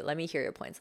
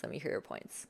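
First: Said in the usual way. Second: Whispered, much softer Let me hear your points. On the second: Shown as a demonstration. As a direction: hush it to invite them in. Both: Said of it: "You go softer".

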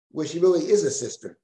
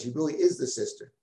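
First: The word "is" leaned on, pitch falling after it; stress on is. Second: "is" given the weight and the rest falls away; stress on is. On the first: Teacher explaining the verse to his class, stressing "is". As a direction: press hard on "is" to insist she truly is a sister. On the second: Teacher repeating the point to the class, leaning on "is". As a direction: hammer the word "is" home. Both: Shown as a demonstration. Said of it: "The, the big emphasis".

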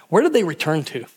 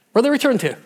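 First: Said in the usual way. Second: Repeated higher and louder for emphasis; emphatic repeat. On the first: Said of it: "preacher repeats question". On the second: Shown as a demonstration. Preacher pressing the crowd with a louder question. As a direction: push the question out to the congregation. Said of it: "preacher repeats question louder".

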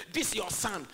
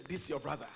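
First: Imitating a scornful son, louder; THIS YOUR SON thrown out with disdain; derogatory. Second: Father's corrective tone. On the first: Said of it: "came talking in a derogatory way". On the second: Retold or imitated. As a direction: gently set THIS YOUR BROTHER down. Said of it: "when the father was talking".

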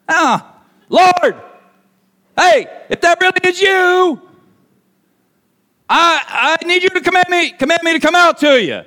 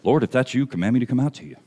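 First: High, halting shouted plea; urgent high-pitched yell; yelling over storm. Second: Low, soft, understated reading; calm, hushed request; mild polite request. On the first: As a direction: holler to someone across the waves. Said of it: "That's how loud everything is going on". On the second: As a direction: say it quietly, as if nothing is happening. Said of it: "Peter's response is". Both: Acted.

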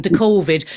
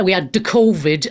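First: "covid" in a light Irish accent. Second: Said in the usual way. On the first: Shown as a demonstration. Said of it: "my Irish accent". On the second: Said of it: "as I call it".

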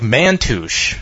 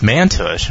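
First: "Mantush" said as it is spelled. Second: "Mantush" in a guessed pronunciation, unlike the spelling. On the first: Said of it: "it's spelled like Mantush". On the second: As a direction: try "Mantush" another way from its spelling. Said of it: "maybe it's pronounced Mantush". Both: Shown as a demonstration.

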